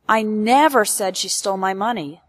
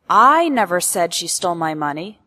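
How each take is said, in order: First: The stress falls on the word never. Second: The stress falls on the word I. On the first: It did not happen even once. "emphasizes that this event ... never happened, not even once" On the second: Someone else said it. "implies that I never said it, but someone else did"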